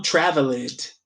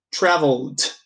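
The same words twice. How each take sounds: First: Traveled slowly with an added syllable, "travel-ed"; mistaken ED ending. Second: Traveled in two syllables, "travld"; correct ED ending. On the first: Teacher shows the error in traveled, over-pronounced ED. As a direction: sound out the full ED in traveled. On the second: Teacher models the right traveled, short d ending. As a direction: close traveled on a bare d. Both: Shown as a demonstration. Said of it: "não traveled".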